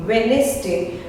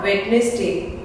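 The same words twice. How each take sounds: First: Said in the usual way. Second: "Wednesday" with the first d sounded, wed-nes-day; mispronounced Wednesday. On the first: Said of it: "D is silent". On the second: Shown as a demonstration. Teacher showing learners the mistake, wed-nes-day for "Wednesday". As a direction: wrongly pronounce the silent d in "Wednesday". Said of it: "not Wednesday".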